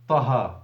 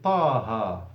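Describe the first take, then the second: First: The first vowel is short, with no stretch. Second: The first vowel is stretched into a long vowel. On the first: The speaker calls it wrong. "you don't say طه" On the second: The speaker calls it right. "it's an ألف ... you say طه"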